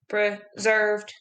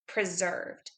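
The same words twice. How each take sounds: First: It is said in a flat mechanical robot voice. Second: It is said in a normal speaking voice. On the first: "Can you say it in a robot voice?" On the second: "Say the word preserved with me"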